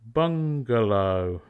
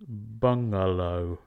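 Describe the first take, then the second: First: A hard g follows the ng sound. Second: No hard g follows the ng sound. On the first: The speaker calls it right. "we add G after ng" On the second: The speaker calls it wrong. "not bungalow"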